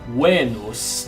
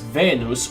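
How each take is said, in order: First: It is said with a Classical Latin pronunciation. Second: It is said with an English pronunciation.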